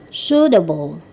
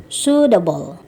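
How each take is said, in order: Both takes have the same delivery.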